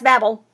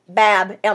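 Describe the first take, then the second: First: It is said fast with the ending run together. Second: It is said with the ending 'el' set apart. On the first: The speaker calls it wrong. "we try to say it real fast" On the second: The speaker calls it right. "It really should have a dash"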